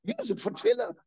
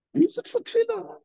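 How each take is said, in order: First: Said in the usual way. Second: "Use it for tefillah" pitched much higher, pressed hard on "Use"; rising urgent exhortation on "Use"; emphatic plea. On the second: Shown as a demonstration. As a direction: drive home "Use" high and urgent. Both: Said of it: "why waste it?".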